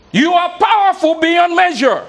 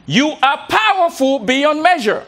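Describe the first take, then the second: First: Higher, louder proclamation; with conviction. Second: Slow, weighty declaration; with conviction. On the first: Speaker urging the room to say it louder. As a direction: ring it out with full conviction. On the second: Speaker leading the room in a slow chant. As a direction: proclaim it slowly so they repeat it. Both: Shown as a demonstration. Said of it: "say this with conviction".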